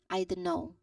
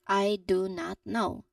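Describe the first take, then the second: First: It is quick, with the T sound dropped. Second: It is slow, with a clear T sound. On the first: "in the elided version" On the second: "say this sentence very slowly and you know, clearly paying attention to each word"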